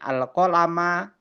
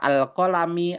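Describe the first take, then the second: First: The word ends in an a vowel. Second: The word ends in an i vowel. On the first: "nggak bisa" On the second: "nggak bisa teman-teman baca al-qalami"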